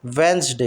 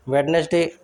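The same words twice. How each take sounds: First: "वेंसडे" in two parts, wens-day; silent D. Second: "वेडनेसडे" in three parts, wed-nes-day; D sounded. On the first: Teacher corrects learners, "वेंसडे" with silent D. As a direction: drop the first D in "वेंसडे". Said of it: "इसमें डी silent होता है". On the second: Teacher shows the mistake, "वेडनेसडे" with D sounded. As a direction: wrongly pronounce the first D in "वेडनेसडे". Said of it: "बोलना गलत है". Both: Shown as a demonstration.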